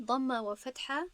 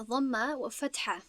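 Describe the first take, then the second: First: ضمه و فتحه again slow, ضمه lifted with a rising end; slow echo of ضمه و فتحه, ending up; repeated slowly. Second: Slow, deliberate ضمه و فتحه with ضمه stretched; teacher spells out ضمه و فتحه slowly, each word apart; stress on key terms. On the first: Teacher repeating the term for students, slow with a rise. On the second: Teacher drilling students on the vowel names, slow and stressed. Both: Shown as a demonstration. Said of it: "تنها چی؟".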